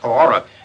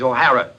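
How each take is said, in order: First: The name is said to sound like 'Horror'. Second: The name is said clearly as 'O'Hara'. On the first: The speaker calls it wrong. "My name is not O'Hara" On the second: The speaker calls it right. "It is O'Hara"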